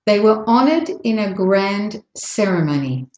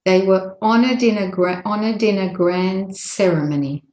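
First: Measured phrasing, honored apart from "in a"; careful, unhurried. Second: "honored in a" run together as "onna-din-a"; linked, faster. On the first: Teacher's first model for learners, careful phrasing. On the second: Teacher showing the faster version, linked words. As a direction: flow straight through honored in a. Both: Shown as a demonstration. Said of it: "when you say it faster".

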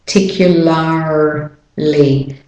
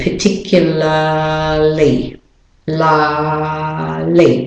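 First: Slow American "particularly", Rs fully sounded; American accent. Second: Slow non-rhotic "particularly", long "lah" and no R; British and Australian accent. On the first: Teacher contrasts accents for learners, American-accented "particularly". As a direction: break up "particularly" with strong American Rs. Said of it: "doing it with an American accent". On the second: Teacher explains the silent R, British-Australian "particularly" drawn out. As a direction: stretch "la" in British-Australian style, R dropped. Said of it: "the R is not said". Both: Shown as a demonstration.

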